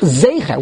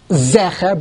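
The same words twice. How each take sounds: First: "Zecher" said ZAY-kher, with a throaty kh; long-e Zecher. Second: "Zecher" with a short open e, as in "get". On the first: Teacher correcting the reading, "Zecher" as ZAY-kher. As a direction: open the first syllable of "Zecher" into "ay". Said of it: "but it's really". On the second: Teacher showing the rejected reading, short-e "Zecher". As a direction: say "Zecher" with a clipped "eh" in the first syllable. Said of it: "it's not Zecher, but it's really". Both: Shown as a demonstration.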